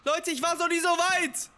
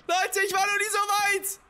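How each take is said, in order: First: Excited. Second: Higher and slower, stretching "so weit"; elated shout to the viewers; drawn-out thrilled cry. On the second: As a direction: savor the triumph loudly. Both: Real, not acted.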